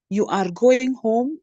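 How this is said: The voice rises at the end. It is a question. "that is a rising intonation"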